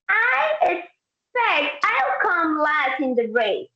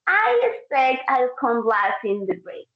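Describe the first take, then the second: First: It sounds arrogant and self-assured. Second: It sounds gloomy and pessimistic. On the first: The speaker calls it wrong. "if I say it like that" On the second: The speaker calls it right. "He's being more like pessimistic"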